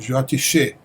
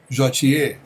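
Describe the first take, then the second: First: The last syllable begins with a sh sound. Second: The last syllable begins with a y sound. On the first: This is the new, corrected way of saying it. The speaker calls it right. "é Jyotishe" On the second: This is the old way of saying it in the mantra. The speaker calls it wrong. "não é para cantar Jyotiye"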